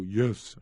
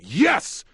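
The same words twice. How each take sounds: First: It is said quietly and weakly. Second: It is yelled loudly and strongly.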